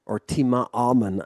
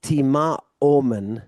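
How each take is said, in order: First: Tima amen said with an a in amen, the fix; the right take, tima amen with a; corrected form. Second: Tima omen said with an o in omen, the slip; the wrong take, tima omen with o; slip of the tongue. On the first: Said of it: "to focus on the omicron". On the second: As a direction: say tima omen with an o sound, as the mistaken form. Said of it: "I should say". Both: Shown as a demonstration.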